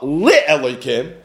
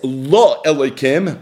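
First: The first syllable has a reduced 'e' vowel. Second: The first syllable has a full 'a' vowel. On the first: The word stands on its own, with no earlier reference. "if it said it with a shva" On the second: It refers to something mentioned earlier. "with a kametz"

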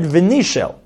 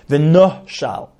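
First: The vowel after the n is an 'i' sound. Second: The vowel after the n is an 'o' sound. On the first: This is how the word is written in the text. "if you read it how it's written, it would be read v'nishal" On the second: This is how the word is traditionally read aloud. "How we read the word is, as we said before, we read it v'noshal"

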